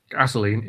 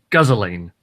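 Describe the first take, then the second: First: Said in the usual way. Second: "guzzling" said as guzz-o-leen, drawn out; Mad Max-style pronunciation. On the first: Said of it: "you don't pronounce". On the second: Shown as a demonstration. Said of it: "It's like how you don't pronounce".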